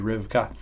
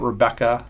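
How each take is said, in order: First: The name has two syllables, Riv-ka. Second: The name has three syllables, Re-bec-ca. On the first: The speaker calls it right. "the better pronunciation would be Rivka" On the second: The speaker calls it wrong. "we pronounce it Rebecca"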